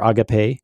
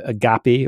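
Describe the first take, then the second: First: Agape said AH-guh-pay; alternative pronunciation. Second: Agape said uh-GAH-pee; variant pronunciation. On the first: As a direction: stress the first syllable of agape, ending in "pay". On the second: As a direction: stress the middle syllable of agape, ending in "pee". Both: Shown as a demonstration. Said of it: "depending on how you pronounce it".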